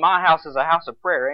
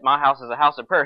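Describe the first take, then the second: First: It is said firmly, with authority. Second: It is said lightly, without authority. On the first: The words are said with conviction and command. "He's saying it with authority" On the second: The words are said without conviction. "He's not saying, oh"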